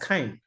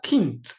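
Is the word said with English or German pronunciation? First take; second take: English; German. First: The word is said with English pronunciation. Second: The word is said with German pronunciation. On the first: The speaker calls it wrong. "it's not pronounced as kind" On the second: The speaker calls it right. "It is pronounced as kind"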